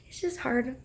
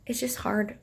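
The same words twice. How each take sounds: First: Said in the usual way. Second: Soft whispered admission. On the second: Real, not acted. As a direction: whisper it, worn down. Admitting pregnancy is tough.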